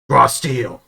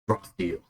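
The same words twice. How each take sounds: First: It is said loudly. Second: It is said quietly.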